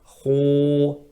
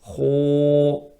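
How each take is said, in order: Both takes have the same delivery.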